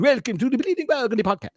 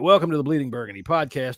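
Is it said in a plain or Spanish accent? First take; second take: Spanish; plain. First: It is said in a put-on Spanish accent. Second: It is said in his normal accent.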